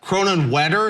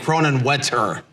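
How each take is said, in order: First: The t sounds are soft, like d sounds. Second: The t sounds are crisp, clear t sounds.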